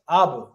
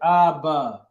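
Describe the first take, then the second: First: The syllables run together quickly and smoothly. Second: The syllables are split with a pause. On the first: The speaker calls it right. "it's Abba" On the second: The speaker calls it wrong. "I'm not gonna say Abba"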